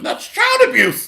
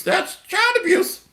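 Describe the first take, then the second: First: Much higher mocking cry of child abuse; mock shriek. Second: Much higher, softer mock whine; mock falsetto. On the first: Preacher mocks the devil agreeing, high squeal. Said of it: "mocking the devil's agreement". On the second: Preacher mocks the complaint, high and soft. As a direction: whine it up high like a fake victim. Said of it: "repeat, softer mock".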